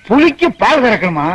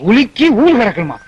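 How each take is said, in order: First: Said in the usual way. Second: உலுக்கி ஊல் with the initial p sounds dropped; echoed mispronunciation. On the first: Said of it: "உச்சரிப்பு தப்பு". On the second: Retold or imitated. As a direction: mimic ஊல் for paal, no p.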